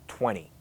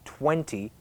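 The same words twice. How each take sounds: First: The middle T sound is dropped completely. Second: The middle T sound is clearly pronounced. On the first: "A lot of people say" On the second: "You might expect people to say"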